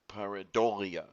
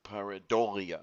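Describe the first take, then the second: First: Only the third syllable carries stress. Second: The same.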